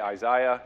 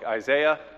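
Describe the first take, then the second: First: The name is said with a British pronunciation. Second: The name is said with an American pronunciation. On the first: The speaker calls it wrong. "as our friends across the pond like to say" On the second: The speaker calls it right. "it's Isaiah as far as we're concerned"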